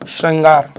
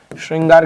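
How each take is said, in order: First: श्रृंगार said shran-gaar, with short a; correct pronunciation. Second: श्रृंगार said shring-gaar, with an i sound; incorrect pronunciation. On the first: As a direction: open श्रृंगार with shran, no i sound. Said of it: "this is right". (श्रृंगार को श्रंगार जैसा, बिना इ) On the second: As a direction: put a short i after श्र in श्रृंगार. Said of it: "श्रृंगार गलत है". (श्रृंगार में इ की ध्वनि, गलत उच्चारण) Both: Shown as a demonstration.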